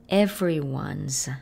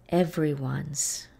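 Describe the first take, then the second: Both takes have the same delivery.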